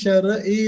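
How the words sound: The syllables are said separately with a break. "ഷെറ് ഈ ഷെറ് ഈ എന്ന് പറഞ്ഞു തന്നെ പഠിച്ച്"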